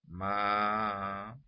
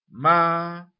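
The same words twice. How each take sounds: First: The syllable is said in a lowered voice. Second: The syllable is said in a loud voice. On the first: "el segundo ma en voz baja" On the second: "en voz alta ma"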